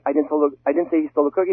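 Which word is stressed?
I. The stress falls on the word I. Someone else said it. "it means I personally didn't say"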